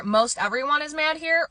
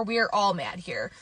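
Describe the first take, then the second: First: High pitch held through to HERE; questioning first option. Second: "We're all mad here" slower, settling down; closing second option. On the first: Vlogger offering viewers the first quote, raised questioning tune. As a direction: lift "Most everyone is mad here" high, left hanging. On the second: Vlogger offering viewers the other quote, falling tune. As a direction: let HERE drop to close the choice. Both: Shown as a demonstration.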